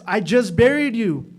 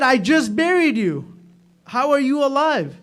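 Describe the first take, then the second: First: Stunned, louder cry of disbelief; shocked disbelief. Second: High, loud cry of amazement; astonished cry. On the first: Husband finding his buried wife alive, stunned. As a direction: gasp it out as if seeing a ghost. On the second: Husband facing his living wife, loud astonished cry. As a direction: blurt it out in wonder. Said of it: "Pata nahi umeed se bola ya hasrat se bola". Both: Retold or imitated.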